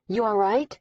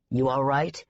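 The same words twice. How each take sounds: First: Said in the usual way. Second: "You all right?" low and savage; low, fierce worried growl. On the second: A narrator's reading. Mick fiercely checking on Daisy, low and savage. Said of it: "His voice was savage".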